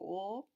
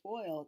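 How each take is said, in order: First: It is said in an Eastern Shore Maryland accent. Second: It is said in a general American accent.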